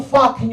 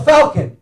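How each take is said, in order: First: Put-on "fucking" meant as falcon, in an Italian accent; falcon without its L. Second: "falcon" pronounced clearly with its L. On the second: Shown as a demonstration. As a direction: correct him, sounding the L in "falcon". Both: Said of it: "There's an L in that word".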